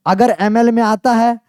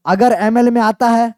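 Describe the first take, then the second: No difference in how they are said.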